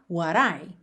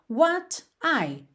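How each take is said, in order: First: The t is a quick tapped d-like sound. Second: The t is pronounced as a clear t.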